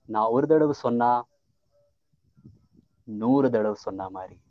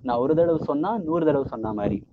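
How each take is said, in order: First: The line is said with marked pauses. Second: The line is said without marked pauses.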